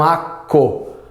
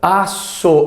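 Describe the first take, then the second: First: The middle consonant is a hard k sound. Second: The middle consonant is a soft s sound. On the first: The speaker calls it wrong. "e não aco" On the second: The speaker calls it right. "Aço e não aco"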